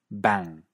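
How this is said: It is said in a British English accent. "En cierto inglés británico"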